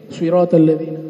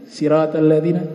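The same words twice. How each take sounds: First: The word begins with an emphatic s sound. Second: The word begins with a plain s sound. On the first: This follows another reading. "pakai shad, swi" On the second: This follows one reading. "pakai sin"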